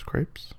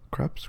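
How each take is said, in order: First: Crepes? said with a long a, like "krayps"; corrected crepes. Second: Crepes? said with a short a, like "kraps"; mispronounced crepes. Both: Shown as a demonstration. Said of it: "I'm really bad at pronouncing things".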